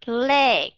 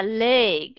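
First: Leg with open Vietnamese e; teacher modelling right vowel; correct leg. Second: Leg with the closed ê; teacher showing the wrong way. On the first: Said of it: "Chứ không phải là leg". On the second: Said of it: "Chứ không phải là". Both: Shown as a demonstration.

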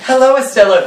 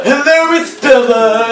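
First: Said in the usual way. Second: Exaggerated greeting. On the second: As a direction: overdo the hello in a raised voice. Exaggerated repeat of the line.

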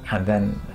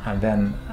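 The two takes are said the same way.

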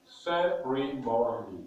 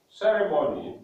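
First: "Ceremony" slowly divided into four syllables; syllabified. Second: Said in the usual way. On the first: Shown as a demonstration. Teacher showing four syllables, "Ceremony" slowly taken apart. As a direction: say "Ceremony" as ce, re, mo, ny, with gaps. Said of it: "That is four syllables". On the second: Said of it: "we are going to syllabify words".

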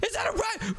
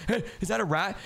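First: Much higher, shouted alarm. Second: Said in the usual way. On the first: Acted. Spotting a rat in the vents, shouting in alarm. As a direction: yell it as the rat registers.

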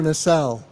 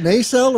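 First: Nacelle offered as nuh-SELL; second option: nacelle with short "nuh", stress landing on "sell"; unstressed first syllable. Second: Nacelle offered as NAY-sell; first option: nacelle with a long "nay" before "sell"; long first vowel. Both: Shown as a demonstration. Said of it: "I wanna be right in my pronunciation".

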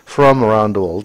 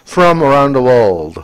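First: Said in the usual way. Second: Very slow, louder English model read; "from around the world" spelled out slowly, every word clear and loud; exaggerated classroom model of "from around the world"; model pronunciation. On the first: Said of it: "repeats the phrase normally". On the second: Shown as a demonstration. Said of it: "teacher models the phrase".

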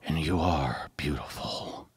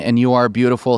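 First: Slow, very soft whisper; Joker's whisper. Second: Said in the usual way. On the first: Shown as a demonstration. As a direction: whisper it and let it fall out. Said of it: "like, just whispers it". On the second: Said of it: "and then the next line".

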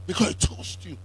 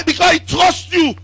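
First: Whisper. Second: Loud declaration. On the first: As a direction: whisper "Because he trusts you" softly, with no voice. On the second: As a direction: shout "Because he trusts you" with a strong fall on "Because". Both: Shown as a demonstration.

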